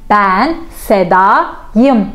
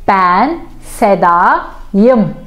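Both takes have the same delivery.

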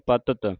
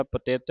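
First: ਪਤਤ with no i, plain short a; ਪਤਤ, short vowels only; correct reading. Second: ਪਤਿਤ with an i in the middle; ਪਤਿਤ with the extra i; wrong vowel shown. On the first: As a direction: say ਪਤਤ without the i. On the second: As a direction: put an i in ਪਤਿਤ, as the mistake. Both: Shown as a demonstration. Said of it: "ਪਤਿਤ ਨਹੀਂ ਕਹਿਣਾ".

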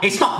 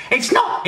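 First: Said in the usual way. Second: Much higher, squeaky comic insistence; first denial squeaked up high; high indignant denial. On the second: Acted. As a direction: shoot it up high in disbelief.

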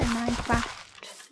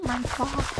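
First: "Minecraft" with a short flat a, as in cat; short-a pronunciation. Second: "Minecraft" with a long ah in craft; posh pronunciation. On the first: Vlogger settling how to say the game's name, "Minecraft" with short a. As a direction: say "Minecraft" with craft rhyming with daft in American speech. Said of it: "it's Minecraft or Minecraft". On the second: Vlogger rejecting a way to say the name, "Minecraft" with posh long ah. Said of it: "I'm apparently posh now". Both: Shown as a demonstration.

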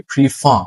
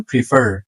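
First: British প্রিফার with silent final r, "pri-FAA"; British accent. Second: American প্রিফার with sounded final r, "pri-FER"; American accent. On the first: Teacher showing the British way, প্রিফার without final r. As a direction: drop the r of প্রিফার as in British English. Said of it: "British অ্যাকসেন্টে শেষে র". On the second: Teacher showing the American option, প্রিফার with final r. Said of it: "American accent". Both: Shown as a demonstration.

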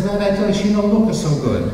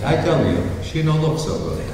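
First: Put-on higher, earnest Italian-accent warning; a worried seller's warning in an Italian accent. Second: Put-on deadpan Italian accent. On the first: Vincenzo warns Luigi about the cow, higher Italian accent. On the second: Vincenzo reminds Luigi of his warning, deadpan Italian accent. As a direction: shrug it off flatly, Italian accent. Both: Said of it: "an Italian couple in southern Italy".

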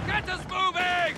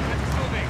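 First: Urgent shouted order. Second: Much lower, controlled command; low-voiced order. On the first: Acted. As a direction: yell at the driver to go. Crew urges driver in combat. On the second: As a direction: give the order down in the chest. Crew gives routine movement order.

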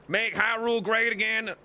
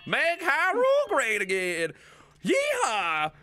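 First: Put-on higher, firm country-accent slogan; country accent, short of a yell. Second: High, drawn-out country whoop; yeehaw-style country yell; hammed-up rally holler. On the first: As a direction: state it like a country-accented voter. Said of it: "in this accent". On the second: Rallying cry in the country character.

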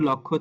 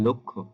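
First: "লক্ষ্য" as open lawk-kho; ভুল উচ্চারণ. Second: "লক্ষ্য" as rounded lok-kho; সঠিক উচ্চারণ. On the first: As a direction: say "লক্ষ্য" with aw after l. ("লক্ষ্য"-এ খোলা অ) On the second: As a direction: say "লক্ষ্য" with o after l. ("লক্ষ্য"-এ ল-এ ও ধ্বনি) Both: Shown as a demonstration. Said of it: "সেটা উচ্চারিত হবে".

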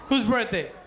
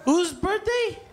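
First: Said in the usual way. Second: Raised crowd question; calling out. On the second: Real, not acted. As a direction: call it out over the party noise.

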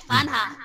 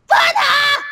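First: Said in the usual way. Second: High, drawn-out shout of "Funha"; calling out. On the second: Acted. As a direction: holler the name "Funha" to summon them.

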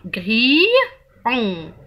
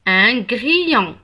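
First: "grillon" slowly broken in two, long "gri", pause, then "on"; split into syllables. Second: Said in the usual way. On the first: Shown as a demonstration. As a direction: stretch and separate the two sounds of "grillon". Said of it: "Alors, on a I". (« grillon » découpé en syllabes, le i allongé) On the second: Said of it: "c'est un grillon".

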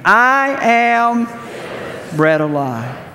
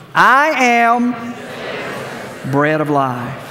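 First: A high, loud, drawn-out "I am", then "bread of life" settles; leading the reading again, louder. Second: Congregation reading. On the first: Pastor leading the congregation in a louder reading. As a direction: call it out louder for the room. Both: Shown as a demonstration. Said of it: "Let's try it again".

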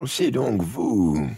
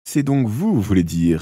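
First: Slow, mournful witch voice; gloomy voice. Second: Delighted surprise; amazed. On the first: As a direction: drag it out, dark and grim. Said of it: "dit-elle d'une voix lugubre". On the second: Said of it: "répliqua Mathieu émerveillé". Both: A narrator's reading.

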